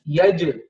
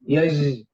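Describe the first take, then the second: First: The j is stopped abruptly with a bounce. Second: The j sound is drawn out and flowing. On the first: The speaker calls it right. "You have to cut it off. You and you make the qalqala" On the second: The speaker calls it wrong. "We make the jim rikhu, means the sound of the jim we let it flow, and that is not right"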